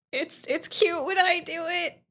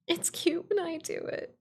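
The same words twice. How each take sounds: First: High, sweet cutesy voice. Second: High coy sing-song; sweetly smug; cutesy voice. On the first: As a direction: play it coy and cute. Cutesy repeat. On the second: Repeat in cute voice. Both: Pretend.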